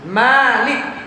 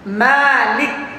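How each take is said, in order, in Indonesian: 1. Vokal pertama setelah m dibaca panjang. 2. Vokal pertama setelah m dibaca panjang.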